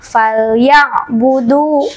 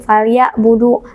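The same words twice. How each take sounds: First: "falyabudu" slow, the ain pressed firmly; now press the ain in "falyabudu" properly; pressed ain sukun. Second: "falyabudu" with the ain glided over, not pressed; wrong unpressed ain. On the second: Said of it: "Ain sukunnya tidak terdengar ditekan ya". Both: Shown as a demonstration.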